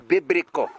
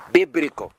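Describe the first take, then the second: First: Said in the usual way. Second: Biblical. set apart alone, louder and lower, falling firmly; emphasized word. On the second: Shown as a demonstration. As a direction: land hard on Biblical. as the key word. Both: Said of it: "I need to emphasize this word".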